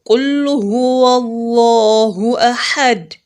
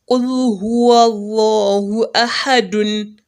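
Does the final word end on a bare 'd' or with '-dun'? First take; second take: bare d; dun. First: The final word ends on a bare, vowelless 'd'. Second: The final word ends with a nasal '-dun' sound. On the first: The reciter stops at the end of the verse. The speaker calls it right. "pronounce it as a sukun instead of dommatain" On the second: The verse is joined to the next one. The speaker calls it wrong. "and not"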